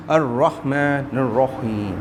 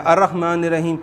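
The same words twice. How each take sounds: First: Very slow الرحمن الرحیم, heavy r and breathy ح; correct Quranic reading. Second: Said in the usual way. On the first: Shown as a demonstration. Teacher contrasts it with the usual reading, slow careful recitation. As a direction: stretch each syllable of الرحمن الرحیم, rounding the r. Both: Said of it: "کتنا فرق پڑ جاتا ہے".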